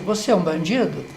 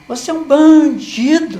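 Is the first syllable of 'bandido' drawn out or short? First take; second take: short; drawn out. First: The word bandido is said plainly, without lengthening. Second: The syllable ban is drawn out and forceful. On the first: It is a mild remark, hardly a reason to fight. "parece até que não tem nem muito motivo de briga" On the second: The person is called much more of a criminal, as an insult. "demorou mais nessa sílaba"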